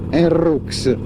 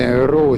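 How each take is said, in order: First: The name ends with an audible x sound. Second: The name ends without any x sound.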